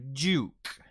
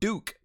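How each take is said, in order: First: It is said in a British accent. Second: It is said in an American accent. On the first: "will turn into" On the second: "the American Standard"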